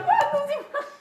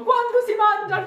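First: Laughing. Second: Excited. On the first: Repeated punchline, laughing. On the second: Comic punchline after mock questions. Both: Real, not acted.

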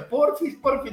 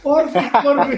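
First: Put-on child's pleading. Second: Put-on high, loud whiny begging like a little kid; mock child pleading. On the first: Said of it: "me hace chantaje". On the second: Father copying his son's begging back at him, whiny and high. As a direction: beg sweetly the way his son does. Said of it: "yo también me pongo en modo".

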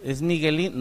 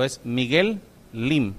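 First: Said in the usual way. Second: "Miguel Lim" spoken slowly, with a clear gap between Miguel and Lim; slow, careful correction of the name; name it slowly and deliberately so nobody mishears. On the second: Shown as a demonstration. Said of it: "déjenme decirlo más despacio".

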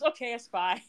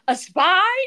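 First: Mock conceding. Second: High, loud disbelieving question; mock incredulous. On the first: Man conceding to the woman he's hiring, understated resignation. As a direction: drop the drama and concede the word. Retold reply giving in. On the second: Woman questioning him once more, hammed-up incredulity. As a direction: repeat it in hammed-up astonishment, pitch leaping.

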